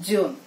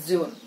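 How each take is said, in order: Both takes have the same delivery.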